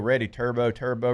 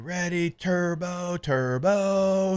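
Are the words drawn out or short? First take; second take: short; drawn out. First: The words are short and quick. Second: The words are long and drawn out. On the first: "he's saying it different" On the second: "Philip was long and he was kind of drawn out"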